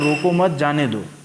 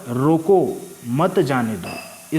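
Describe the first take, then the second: First: There is a break after 'मत'. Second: There is a break after 'रोको'. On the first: Do not stop him; let him go. "अर्थात उसको रोको मत जाने दो" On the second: Stop him; do not let him go. "तो उसको रोकना है, जाने नहीं देना है"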